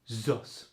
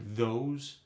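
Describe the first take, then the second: First: The word begins with a z sound. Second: The word begins with a voiced th sound.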